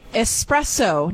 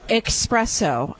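First: The first syllable is said with a plain s sound. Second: The first syllable is said with a ks sound. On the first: The speaker calls it right. "There's three S's in the word and not one single X" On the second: The speaker calls it wrong. "not espresso"

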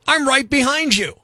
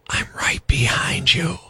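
First: It is said in a normal speaking voice. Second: It is said in a whisper. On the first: It sounds harmless. "sounds okay when said out loud" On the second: It sounds creepy. "creepy when whispered"

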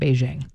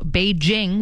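First: The J is pronounced as a soft zh sound. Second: The J is pronounced as a hard J. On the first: The speaker calls it wrong. "I've always said Beijing" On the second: The speaker calls it right. "Beijing with a hard J is how you're supposed to say it"

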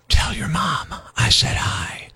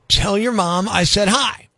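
First: It is spoken in a whisper. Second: It is spoken in a normal full voice. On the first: It sounds creepy. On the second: It sounds harmless.

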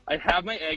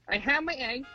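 First: It is said in the speaker's normal voice. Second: It is said in a put-on character voice.

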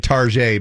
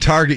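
First: The word is said in a fancy, foreign-sounding way. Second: The word is said in its ordinary plain way. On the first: "It's said in a different way. A fancy way" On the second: "instead of saying Target"

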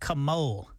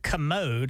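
First: The word ends with an L sound. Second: The word ends with a D sound. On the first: The speaker calls it wrong. "He says commole" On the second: The speaker calls it right. "He can't say the word commode"

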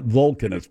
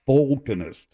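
First: The first syllable is pronounced like 'vul'. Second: The first syllable is pronounced like 'vol'. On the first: It names believers in a racial hierarchy. The speaker calls it wrong. "Not Vulcanist" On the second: It names experts in volcanoes. The speaker calls it right. "V-O-L, like a volcano?"

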